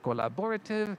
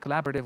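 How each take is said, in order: First: The stress is not on the second syllable. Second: The stress is on the second syllable. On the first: The speaker calls it wrong. "I said collaborative" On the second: The speaker calls it right. "with the stress on the second syllable"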